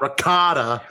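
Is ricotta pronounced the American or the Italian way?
American. The word has an American English pronunciation. The speaker calls it wrong. "not ricotta"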